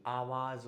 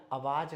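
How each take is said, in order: First: आवाज़ as "aavaaz", long aa and final z; correct pronunciation. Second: आवाज़ as "avaaj", short a and final j; common mispronunciation. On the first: Teacher correcting, आवाज़ said "aavaaz" with long start. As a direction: open आवाज़ on long aa and end on z. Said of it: "आवाज़ होता है". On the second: Teacher showing the wrong form, आवाज़ said "avaaj". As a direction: shorten the start of आवाज़ and end it on j. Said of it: "अगला आवाज़ नहीं". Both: Shown as a demonstration.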